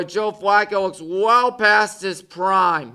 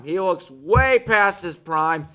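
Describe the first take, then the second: First: Said in the usual way. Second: "way" leaned on as the key word; slow restatement with "way" weighted; stress on way. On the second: Real, not acted. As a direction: hit "way" to push the point.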